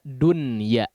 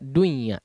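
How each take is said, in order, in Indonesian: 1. Bunyi n dilafalkan dengan jelas sebelum y. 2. Bunyi n menyatu dengan y. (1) "dibaca dunya karena diizharkan" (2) "tidak dibaca dunya"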